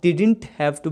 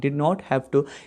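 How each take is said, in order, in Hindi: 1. 'Did not' को छोटा करके एक शब्द बनाया जाता है, 'didn't'। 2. 'Did not' को दो पूरे शब्दों की तरह बोला जाता है। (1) "इसे आप डिडंट हैव टू भी कह सकते हो"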